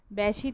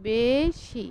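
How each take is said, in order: First: বেশি said with an open "ae" vowel; teacher shows the mistaken open-e বেশি; wrong open e. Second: বেশি said with a clear close e, as in "ে"; teacher models বেশি with a close e sound; correct close e. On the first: Teacher to students, shows the wrong open e. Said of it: "বেশি তো বলি না". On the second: Teacher to students, models the correct close e. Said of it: "বেশি বলি আমরা". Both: Shown as a demonstration.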